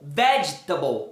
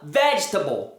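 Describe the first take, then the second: No difference in how they are said.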